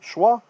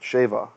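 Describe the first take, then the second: First: The word has a W sound after the first consonant. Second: The word has a V sound after the first consonant. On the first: This is the name used in scholarly articles. "the scholarship calls it Schwa" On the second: This is the name used in modern Hebrew. "Because the W became a V sound"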